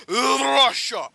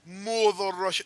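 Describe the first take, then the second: First: Hammed-up Russian accent on "Russia", higher and louder; mock Russian. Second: Said in the usual way. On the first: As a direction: boom "Russia" like a Soviet propaganda voice.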